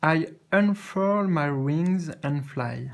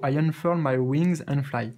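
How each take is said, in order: First: Slow, careful French-accented read of I unfurl my wings and fly; French-accented English. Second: Surer French-accented reread of I unfurl my wings and fly, still slow; French-accented English. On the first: First read of the card to viewers, slow French-accented English. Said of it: "désolé pour mon accent". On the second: Second read of the card to viewers, steadier French-accented English. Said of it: "je connais même pas ce mot". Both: Shown as a demonstration.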